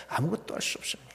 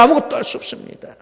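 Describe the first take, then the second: First: Hushed whisper on 아무것도, rising at the end. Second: Much higher, voiceless edge, 아무것도 pushed up; high cry. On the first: Pastor hushing the congregation, whispered warning. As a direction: breathe 아무것도 할 수 없습니다 almost voiceless. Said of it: "repeated line whispered". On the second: Pastor crying out the same warning, high and urgent. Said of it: "repeated line cried out". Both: Acted.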